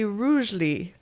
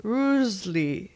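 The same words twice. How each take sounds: No difference in how they are said.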